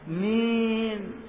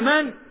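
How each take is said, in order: First: The vowel is a long 'ee' sound. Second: The vowel is a short 'a' sound. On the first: The speaker calls it wrong. "هذه الإيمال منين جاءت؟" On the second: The speaker calls it right. "قول من؟"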